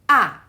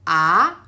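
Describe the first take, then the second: First: The pitch falls sharply from high. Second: The pitch rises toward the end. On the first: "the stick that come from upper left towards the uh, lower right" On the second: "a stick that towards upper right direction"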